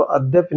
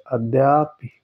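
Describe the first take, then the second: First: अद्यपि said with short द्य-प, no long a; अद्यपि read as the mistake; wrong spelling read out. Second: अद्यापि with a long आ after द्य; अद्यापि as the right answer; correct form. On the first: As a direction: show the wrong form अद्यपि plainly. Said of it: "अद्यपि नहीं होता है". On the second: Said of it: "ये अद्यापि होता है". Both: Shown as a demonstration.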